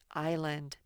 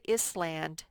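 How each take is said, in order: First: The S in the middle is silent. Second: The S in the middle is pronounced. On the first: The speaker calls it right. "say island. The S is silent" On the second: The speaker calls it wrong. "don't say island"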